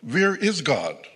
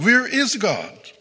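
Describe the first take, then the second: First: It is asked sternly at moderate volume. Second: It is bellowed at very high volume.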